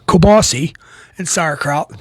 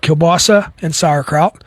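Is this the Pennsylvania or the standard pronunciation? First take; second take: Pennsylvania; standard. First: It uses the regional Pennsylvania pronunciation. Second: It uses the standard, non-regional pronunciation.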